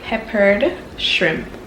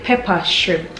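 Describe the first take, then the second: First: The word pepper ends with an -ed sound. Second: The word pepper has no -ed ending. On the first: This is the standard form most people understand. "so I say peppered shrimp, which is the right way" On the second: This is the local way of saying it. "We call it pepper shrimp"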